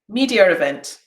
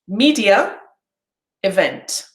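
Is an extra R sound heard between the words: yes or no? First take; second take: yes; no. First: The words run quickly with an R between them. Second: The words are said slowly with no extra sound. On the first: "there was a R sound" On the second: "separately and slowly"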